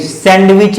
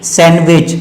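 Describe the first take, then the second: First: सैंडविच with the D sounded; wrong pronunciation. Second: सैंडविच said as "san-wich"; corrected सैंडविच, no d; silent D. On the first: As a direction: say सैंडविच slowly as "sand-wich". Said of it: "सैंडविच नहीं". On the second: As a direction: drop the d in सैंडविच. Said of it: "डी की उच्चारण नहीं होगा". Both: Shown as a demonstration.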